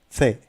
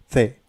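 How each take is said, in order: First: It begins with a soft 'th' sound. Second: It begins with a soft 'th' sound.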